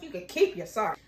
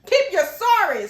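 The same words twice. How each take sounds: First: Low, quick dismissal; dismissive. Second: Loud, high, drawn-out dismissal; hammed-up outrage, stretching every word; emphatic rejection. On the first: Acted. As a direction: curtly brush off the apology. First, low dismissal of apology. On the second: Repeated, emphatic rejection of apology.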